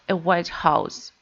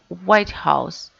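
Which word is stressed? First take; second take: house; white. First: The stress falls on the word house. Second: The stress falls on the word white. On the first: "we stress house" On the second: The US government administration. "The first word is stress"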